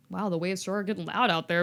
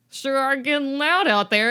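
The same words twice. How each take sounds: First: Said in the usual way. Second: Loud, raised-pitch nervous remark; forced, high and loud observation; louder mock alarm. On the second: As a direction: call it out over the din. [name]'s reaction as banging repeats.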